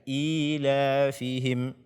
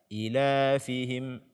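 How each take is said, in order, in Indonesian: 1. Vokal pertama dibaca panjang. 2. Vokal pertama pendek. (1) "dibaca dengan eh, panjang dua harakat" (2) "jangan dibaca ilafihim"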